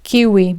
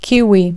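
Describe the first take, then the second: No difference in how they are said.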